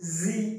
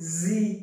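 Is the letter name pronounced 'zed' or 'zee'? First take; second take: zee; zee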